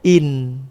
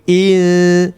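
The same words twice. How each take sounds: First: The n is clear and short. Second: The n is nasalized and held longer. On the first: The speaker calls it wrong. "Jangan dibaca in" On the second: The speaker calls it right. "tapi in"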